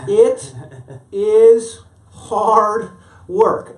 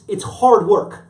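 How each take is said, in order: First: The phrase is spoken slowly, word by word. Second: The phrase is spoken at a normal, quick pace.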